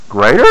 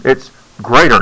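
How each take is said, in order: First: Greater? with a rising question tune. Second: Falling statement tune on It's greater. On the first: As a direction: let greater? lift at the end like an unsure question. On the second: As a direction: say It's greater as a firm statement with the voice dropping at the end. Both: Shown as a demonstration. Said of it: "Don't ask it in a question".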